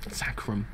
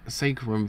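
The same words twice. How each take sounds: First: "Sacrum" said as SACK-rum; "Sacrum" opening with the vowel of "sack"; short-A sacrum. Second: "sacrum" said as SAY-krum; "sacrum" opening with the vowel of "say"; long-A sacrum. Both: Shown as a demonstration. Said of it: "how you pronounce that word".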